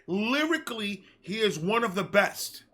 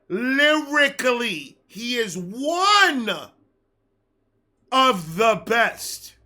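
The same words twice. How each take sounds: First: It is said at normal speed. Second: It is said slowly and deliberately.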